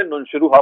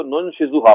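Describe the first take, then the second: First: نون شروہا with a rolled r in شروہا; نون شروہا, ray reading. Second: نون شزوہا with a clear z sound in شزوہا; نون شزوہا, zay reading. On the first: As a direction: say شروہا with r instead of z. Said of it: "زے کو رے سے replace کر دیا". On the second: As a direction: say شزوہا with z, not r. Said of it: "زے پڑھا". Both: Shown as a demonstration.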